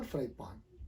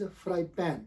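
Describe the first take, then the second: First: "fry pan" ending in paan; long back aa in the pan of fry pan; wrong pronunciation. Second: "fry pan" with a front ae, pan; vowel of "cat" in the pan of fry pan; correct pronunciation. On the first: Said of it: "not fry pan". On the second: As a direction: say fry pan as "fry pen", open e. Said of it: "This word is". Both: Shown as a demonstration.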